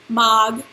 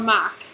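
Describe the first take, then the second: First: The word ends with a clear g sound. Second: The word ends with a clear k sound. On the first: "It's not mag" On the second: "or mac"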